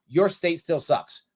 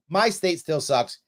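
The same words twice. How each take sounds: First: "your" stressed, slow and falling. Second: "My" stressed, slow and falling. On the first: Telling New York voters, stress on "your". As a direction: punch "your" in "your state still sucks". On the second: Admitting it to fellow New Yorkers, stress on "My". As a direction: punch "My" in "My state still sucks". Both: Shown as a demonstration.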